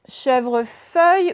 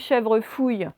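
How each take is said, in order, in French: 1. La dernière syllabe a la voyelle 'eu'. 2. La dernière syllabe a la voyelle 'ou'.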